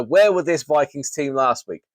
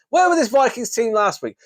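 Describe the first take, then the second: First: Said in the usual way. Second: Exasperated demand. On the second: Real, not acted. Ranting at the Vikings team.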